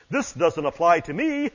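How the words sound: It is said in his natural voice.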